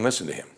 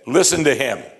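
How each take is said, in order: First: It is said plainly, without extra force. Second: It is said forcefully, with strong emphasis.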